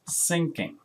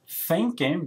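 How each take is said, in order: First: The word begins with an S sound. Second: The word begins with a TH sound.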